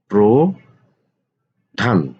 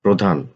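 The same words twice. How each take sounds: First: প্রধান stretched very slowly, syllable by syllable; drawn-out spelling. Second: Said in the usual way. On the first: Shown as a demonstration. Teacher to students, slowly stretching প্রধান. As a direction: draw out প্রধান slowly so students hear each part. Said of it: "teacher stretches word for students". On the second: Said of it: "teacher repeats word slowly".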